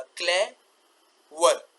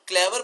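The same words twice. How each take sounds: First: क्लेवर split as cle, pause, ver; very slow, separate syllables in क्लेवर; two sounds. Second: Said in the usual way. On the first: Shown as a demonstration. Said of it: "तो ये दो sound हो गए". (क्लेवर को तोड़कर धीरे-धीरे, क्ले... वर) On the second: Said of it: "पढ़ते ही अदा नहीं हो रहा".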